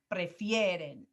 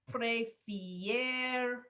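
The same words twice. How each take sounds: First: Said in the usual way. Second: "prefieren" broken into long, separate syllables; "prefieren" slowly, pausing before the final syllable; drawn out by syllable. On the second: Shown as a demonstration. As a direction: stretch "prefieren" out piece by piece as it is built. Building the conjugated verb piece by piece.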